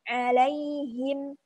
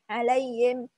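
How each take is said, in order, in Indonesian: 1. Bunyi h-nya terdengar jelas. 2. Bunyi h-nya samar dan tersembunyi. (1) "harusnya diperjelas" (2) "Jadi nggak jelas gitu"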